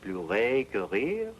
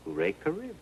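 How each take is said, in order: First: "Pleurer que rire" slowly, French r's, rising at the end; French pronunciation. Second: "hooray" as an English cheer, pitched high, then "que rire"; English-sounding version. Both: Shown as a demonstration. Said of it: "they sound something like French".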